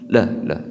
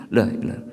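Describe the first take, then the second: The two takes are said the same way.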